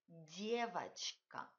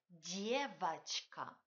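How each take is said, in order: No difference in how they are said.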